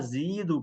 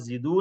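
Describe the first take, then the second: First: The first vowel is long. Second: The first vowel is short. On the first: The speaker calls it right. "जमा के अंदर या लाजमी आएगा" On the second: The speaker calls it wrong. "जिदू नहीं कहना"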